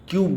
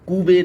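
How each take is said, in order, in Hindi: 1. b के बाद कोई स्वर सुनाई नहीं देता। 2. b के बाद एक स्वर सुनाई देता है। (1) "हम क्यूब बोलेंगे" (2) "कूबे ना बोल करके"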